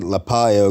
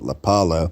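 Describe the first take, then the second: First: The middle consonant sounds like a 'y'. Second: The middle consonant sounds like an 'l'. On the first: This is the name's actual pronunciation. The speaker calls it right. "that's how it's actually pronounced" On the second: This is how most people say the name. The speaker calls it wrong. "everybody pronounces it Lapalo"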